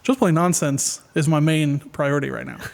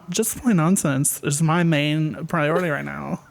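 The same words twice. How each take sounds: First: It is said in a plain, sincere tone. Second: It is said in a flirty, teasing tone.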